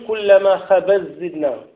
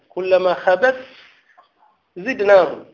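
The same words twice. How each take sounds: First: The ta merges into the following zay. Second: The ta is pronounced clearly before the zay. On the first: The speaker calls it wrong. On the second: The speaker calls it right.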